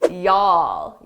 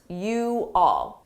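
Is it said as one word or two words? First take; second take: one word; two words. First: The two words are merged into one syllable. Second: Both words are said separately, though quickly. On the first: This is typical of the southern United States. "it's very common to combine you all into one word" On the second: This is the speaker's own everyday usage. "I said it quickly, but I did say the individual words"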